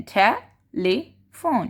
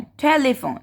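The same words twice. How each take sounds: First: "telephone" broken up as te... lee... fone; three separate syllables. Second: Said in the usual way. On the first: Shown as a demonstration. Teacher counting syllables for trainees, "telephone" in three paused beats. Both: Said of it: "तीन possess दिए हैं".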